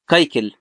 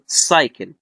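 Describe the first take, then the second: First: The word begins with a k sound. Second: The word begins with an s sound. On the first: The speaker calls it wrong. "ما بقولش كايكل" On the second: The speaker calls it right. "لا بقول ايه سايكل"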